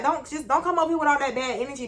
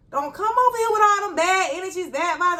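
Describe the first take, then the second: First: Mildly pleading, a little high; not rude. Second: High-pitched, forceful retold protest; exasperated plea. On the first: Retold or imitated. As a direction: insist gently without sounding rude. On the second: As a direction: ward off a coworker's negativity, pitched way up. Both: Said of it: "I ain't said it in the rude way".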